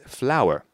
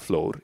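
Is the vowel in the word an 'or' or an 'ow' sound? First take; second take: ow; or. First: The vowel sounds like 'ow', as in flower. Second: The vowel sounds like 'or', one syllable. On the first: The speaker calls it right. "it's flower" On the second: The speaker calls it wrong. "Maybe you would expect it to be pronounced as a flor, but it's not flor"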